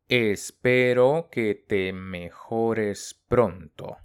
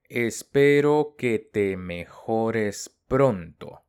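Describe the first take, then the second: Both takes have the same delivery.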